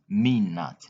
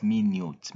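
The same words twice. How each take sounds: First: Minute said min-it; correct minute. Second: Minute said my-newt; wrong minute. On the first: Teacher giving the right form, minute said min-it. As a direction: minute with a short final vowel. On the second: Teacher showing the mistake, minute said my-newt. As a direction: minute with a long yoo sound. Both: Shown as a demonstration.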